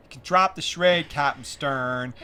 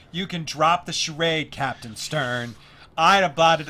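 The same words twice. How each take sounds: First: Put-on loud, slow, pitched-up kid reading; child actor's audition line. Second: Put-on slow, loud, pitched-up kid reading; child actor's audition line. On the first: Young girl auditioning for Princess Leia, slow and loud. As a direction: drag out Captain Stern like a nervous young girl. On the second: Young girl reading her audition line to the director, slow and loud. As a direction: overact it the way a twelve-year-old would. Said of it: "She was like".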